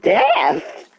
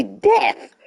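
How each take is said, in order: First: High, questioning retry of the cracked word; repeated voice crack. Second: Voice crack. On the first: Shown as a demonstration. Streamer repeating the word that cracked, high and questioning. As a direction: say it back high, testing the crack. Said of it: "my voice cracked so badly when I said death". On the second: Real, not acted. Streamer reading out injury effects, voice cracking. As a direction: voice cracks sharply upward on the word. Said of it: "my voice cracked so badly".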